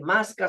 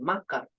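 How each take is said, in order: First: The s before the c is pronounced. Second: The s before the c is dropped. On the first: "En vez de masca" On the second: "se dice maca"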